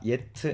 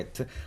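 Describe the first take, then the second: First: The word begins with a y sound. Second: The word begins directly with a vowel. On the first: The speaker calls it wrong. "예트 아니고" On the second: The speaker calls it right.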